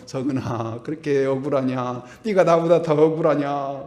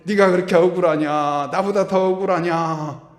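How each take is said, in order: First: Joseph rebuking. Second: Jesus rebuking. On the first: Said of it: "요셉이 딱 나와가지고". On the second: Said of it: "예수님이 딱 나와가지고". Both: Acted.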